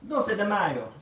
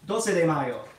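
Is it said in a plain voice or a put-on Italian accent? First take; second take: Italian accent; plain. First: It is said in an exaggerated Italian accent. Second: It is said in the speaker's ordinary accent.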